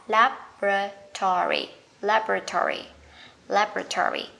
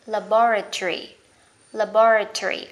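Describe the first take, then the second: First: American "laboratory", LAB-ra-tory; American pronunciation. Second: British "laboratory", stressed la-BO-ra-tree; British pronunciation. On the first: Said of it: "Anh Mỹ sẽ là". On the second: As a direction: punch BO and end "laboratory" in tree. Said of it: "Anh Anh". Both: Shown as a demonstration.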